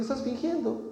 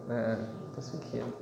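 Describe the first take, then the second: First: Higher, softer calling out the pretence; gently expose the pretending; the Lord telling believers, softly accusing. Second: Put-on low, soft knowing child's voice. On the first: The Lord speaking to us. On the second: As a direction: quietly catch him out like a small boy. Child voiced catching father.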